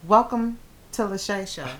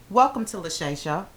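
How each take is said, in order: First: It is said with a dramatic pause inside. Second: It is said smoothly without a pause.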